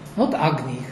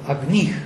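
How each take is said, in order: First: The stress is on the first syllable. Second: The stress is on the second syllable. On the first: This is how the word is said today. "not agnih as we say it now" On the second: This is the old fixed accent of the text. "stress falls on the second syllable"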